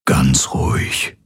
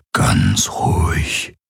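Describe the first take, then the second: First: Slow, soothing whisper; calm a man in agony with a whisper. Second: Very slow, much lower whisper; slow soothing whisper. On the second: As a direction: hush him gently, drawing out each word. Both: A narrator's reading. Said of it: "flüsterte er".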